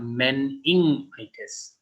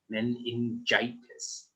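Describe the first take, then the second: First: The middle is said with an 'ing' sound. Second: The middle is said with an 'in-j' sound. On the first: The speaker calls it wrong. "This is not meningitis" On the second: The speaker calls it right. "it is more like um, men in gitis"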